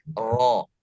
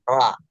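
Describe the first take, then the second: First: The vowel after r sounds close to o. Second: The vowel after r sounds close to a. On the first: This is how a Javanese speaker reads it. "orang yang logatnya lahjah eh, Jawa, makanya ketika membaca ro agak sedikit dan sangat mungkin mendekati o" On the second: This is how a Sumatran speaker reads it. "Kalau orang Sumatera, dia agak lebih ke a"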